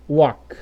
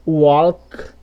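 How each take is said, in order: First: Walk said as "uók", no L; silent L. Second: Walk with an audible L before K; wrong sounded L. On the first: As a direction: drop the L from walk. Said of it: "Você vai falar". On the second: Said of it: "Você não vai falar assim". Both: Shown as a demonstration.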